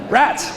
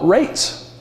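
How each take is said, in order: First: The vowel is a short 'a' sound. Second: The vowel is a long 'ay' sound. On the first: The seventeenth-century way of saying it. "That's how it's pronounced" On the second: The modern way of saying it. "No, rates. Taxes"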